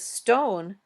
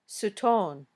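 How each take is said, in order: First: The word starts directly with the st cluster. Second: An extra vowel splits the s from the t.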